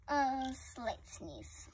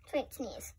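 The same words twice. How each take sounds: First: "A slight sneeze" whispered softly and slowly. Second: Said in the usual way. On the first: Shown as a demonstration. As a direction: hush it out slow.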